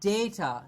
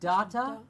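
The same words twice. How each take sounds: First: The first syllable sounds like 'day'. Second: The first syllable sounds like 'dah'. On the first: The speaker calls it right. "Like the date of what the date is today" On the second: The speaker calls it wrong. "It's not data"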